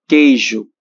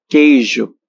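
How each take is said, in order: Both takes have the same delivery.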